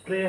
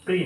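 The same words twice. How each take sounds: First: "প্রে" with an e vowel; "প্রে" with open e, not i; correct syllable. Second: "প্রি" with an i vowel; "প্রি" with close i, not e; mistaken syllable. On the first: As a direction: say "প্রে" as preh. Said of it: "এখানে প্রে হবে". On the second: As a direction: say "প্রি" as pree. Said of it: "প্রি না". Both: Shown as a demonstration.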